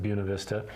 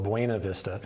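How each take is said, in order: First: The name is said the local Colorado way. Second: The name is said the way it is spelled. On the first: "Coloradans pronounce it Buena Vista" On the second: "it is spelled Buena Vista"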